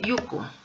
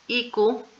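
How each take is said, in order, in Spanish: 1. La palabra empieza con un sonido 'yoo'. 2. La palabra empieza con un sonido 'ee'. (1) "y también eh, yuku" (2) "tiene dos pronunciaciones"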